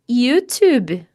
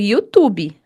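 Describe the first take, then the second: First: It is pronounced with an English accent. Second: It is pronounced with a Brazilian Portuguese accent. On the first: This is how it is said in English. "Mas é assim que se fala em inglês" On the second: This is the everyday way of saying it. "No dia a dia eu não falo assim não, viu? Eu falo YouTube"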